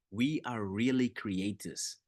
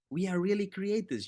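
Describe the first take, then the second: First: Said in the usual way. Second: Rising exclamation. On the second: Shown as a demonstration. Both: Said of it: "I love that".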